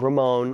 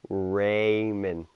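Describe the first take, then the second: First: The name is said as 'ra-mon' without the d. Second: The name is said with a clear 'ray' and 'mond'. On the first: The speaker calls it wrong. "Not Ramon" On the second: The speaker calls it right. "Raymond. Not Ramon"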